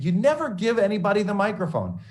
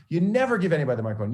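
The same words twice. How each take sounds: First: High, loud, emphatic scold with NEVER hit hard; stern scolding. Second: Same scold again, fast and a bit higher; rapid repeat. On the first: Professor scolding the student about the microphone, loud and stern. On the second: Professor hammering the rule home, fast and insistent. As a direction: rattle the rule off quickly as a reminder. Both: Retold or imitated.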